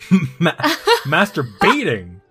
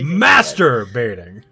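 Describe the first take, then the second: First: The stress falls on the final 'baiting' part. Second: The stress falls on the first 'master' part. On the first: "why did I put the emphasis on the baiting?" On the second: "You think you'd put it on the master"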